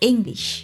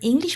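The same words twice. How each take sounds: First: The first vowel is an 'eh' sound. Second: The first vowel is an 'ee' sound. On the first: The speaker calls it right. "ইংরেজি ই হলো জার্মানে এ, সো উচ্চারণটা হবে ইংলিশ" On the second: The speaker calls it wrong. "ইংলিশ বলা যাবে না"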